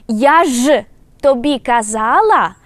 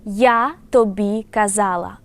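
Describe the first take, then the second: First: Я ж тобі казала much louder, ж pressed, казала stretched; emphatic reproach. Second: Said in the usual way. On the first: Shown as a demonstration. Teacher repeating the contrast, loud and emphatic with ж. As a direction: hammer the ж and drag out казала. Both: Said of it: "One more time".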